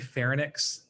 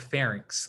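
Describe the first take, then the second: First: The word ends with a 'nix' sound. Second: The word ends with a 'rinks' sound. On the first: The speaker calls it wrong. "some people say pharynx, ... they're switching the N and the Y" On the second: The speaker calls it right. "you want to pronounce these as like larynx or pharynx"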